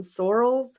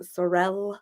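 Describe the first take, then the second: First: "Sorels" said like SOR-uhlz; stressed first syllable. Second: "Sorel" said like suh-RELL; stressed second syllable. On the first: Host showing how some people say it, "Sorels" as SOR-uhlz. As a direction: stress the start of "Sorels", weak second syllable. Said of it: "a lot of people pronounce it differently". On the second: Host showing the other way people say it, "Sorel" as suh-RELL. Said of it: "some people pronounce them Sorel". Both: Shown as a demonstration.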